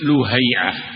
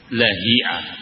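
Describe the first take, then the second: First: The first syllable has the vowel u. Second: The first syllable has the vowel a. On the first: The speaker calls it wrong. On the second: The speaker calls it right.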